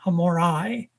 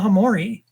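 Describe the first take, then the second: First: The final vowel sounds like 'eye'. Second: The final vowel sounds like 'ee'. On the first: The speaker calls it right. "If there's an I at the end, it's a hard I" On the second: The speaker calls it wrong. "I was saying"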